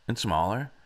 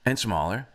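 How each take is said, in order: Both takes have the same delivery.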